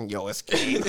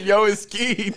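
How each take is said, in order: First: A light put-on Skeet voice with a hint of Irish. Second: Giggling through a higher Skeet line; laughing as you quote Skeet to the group. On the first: Asked by a friend, a light Skeet impression. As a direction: do your Skeet voice, slightly Irish. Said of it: "I gotta hear your Skeet voice". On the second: Retold or imitated. Quoting Skeet's text while cracking up. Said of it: "He said".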